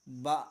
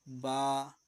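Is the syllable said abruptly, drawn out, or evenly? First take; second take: abruptly; evenly. First: The syllable is cut off with a jerk. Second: The syllable is said evenly at normal length. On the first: The speaker calls it wrong. "झटका देते हैं" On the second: The speaker calls it right. "Normal पढ़ना है"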